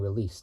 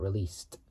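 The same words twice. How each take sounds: First: The word ends without a D sound. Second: The word ends with a clear D sound. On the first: The speaker calls it wrong. "it sounds like I'm saying released" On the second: The speaker calls it right. "not released, with a D at the end"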